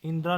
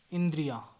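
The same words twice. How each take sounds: First: इंद्रा in two syllables, 'in-dra'; wrong pronunciation. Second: इंद्रिया with full 'dri-ya'; correct pronunciation. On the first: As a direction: leave the 'i-ya' glide out of इंद्रा. (इंद्रा, गलत रूप का उच्चारण) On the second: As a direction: add the 'i-ya' glide in इंद्रिया. (इंद्रिया का सही उच्चारण) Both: Shown as a demonstration. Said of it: "इंद्रा नहीं".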